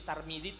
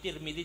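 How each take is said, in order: First: The first vowel sounds like a. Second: The first vowel sounds like i. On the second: "Tirmidzi juga boleh"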